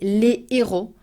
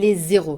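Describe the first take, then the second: First: No z sound links the article and noun. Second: A z sound links the article and noun. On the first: It means the heroes. The speaker calls it right. "without saying les zéros" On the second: It means the zeros. The speaker calls it wrong. "You're saying something else if you say les zéros"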